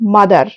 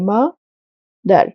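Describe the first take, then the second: First: The word is said without a break. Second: The word is split by a short pause.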